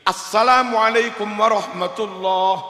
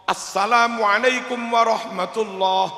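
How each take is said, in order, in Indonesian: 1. Dimulai dengan 'as-salam', artikelnya ada. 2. Dimulai dengan 'as-salam', artikelnya ada.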